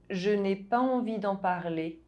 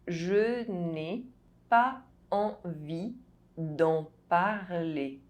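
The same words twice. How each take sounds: First: The sentence is spoken at normal speed. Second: The sentence is spoken slowly. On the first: "I'll say it again at a normal pace" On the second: "you listen to the phrase in slow French"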